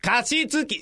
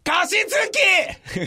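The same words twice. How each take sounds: First: It is said at a more moderate volume. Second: It is shouted very loudly.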